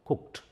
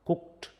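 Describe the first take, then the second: No difference in how they are said.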